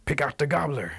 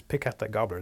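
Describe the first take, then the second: First: Raised, higher-pitched call; sudden commanding call; calling the signal. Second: Said in the usual way. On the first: Acted. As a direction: cry out the secret cue over the dancing. Rabbit's sudden signal to wildcat.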